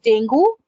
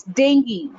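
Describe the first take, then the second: First: "dengue" ending in a rising goo; "dengue" with OO, as a mistake; wrong pronunciation. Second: "dengue" as DENG-gee, falling; "dengue" with EE, firmly falling; correct pronunciation. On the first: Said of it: "It's not dengue". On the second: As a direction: say "dengue" with a ghee ending. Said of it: "it's dengue". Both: Shown as a demonstration.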